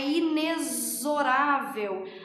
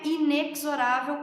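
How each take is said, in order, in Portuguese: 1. O x é pronunciado como z. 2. O x é pronunciado como ks. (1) "A pronúncia correta dessa palavra é inexorável. Aquele X tem som de Z" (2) "não é inexorável como muitas vezes a gente ouve por aí"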